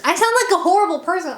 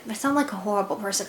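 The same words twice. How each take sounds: First: High, whiny and quick; mock whiny wail. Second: Quick aside. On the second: Real, not acted. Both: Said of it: "gosh, I sound like a".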